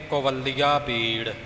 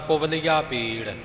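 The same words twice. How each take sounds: First: A consonant is pressed hard and doubled. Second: The consonants are said softly, without doubling. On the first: The speaker calls it wrong. "ਕੁਵਲੀਆ ਪੀੜ ਨਹੀਂ ਬੋਲਣਾ" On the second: The speaker calls it right. "ਇਉਂ ਪੋਲਾ ਉਚਾਰਨ ਕਰਨਾ ਹੈ"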